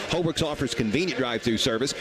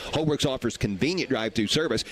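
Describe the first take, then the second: The two takes are said the same way.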